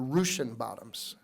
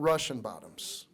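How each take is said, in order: First: Russian is said the old local Lincoln way. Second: Russian is said the usual standard way. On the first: "that's how they used to pronounce it here in Lincoln" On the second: "not the Russian bottoms"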